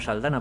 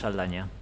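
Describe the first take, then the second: First: The middle consonant is a plain n sound. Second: The middle consonant is a palatal ny sound. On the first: This is how it is said in the United States. "allí la presentan como Saldana, porque los pobres no tienen la ñ ni la saben pronunciar" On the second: This is the original form of the name. "aunque de origen es Saldaña"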